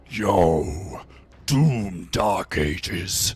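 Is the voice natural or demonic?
demonic. It is said in a put-on demonic voice.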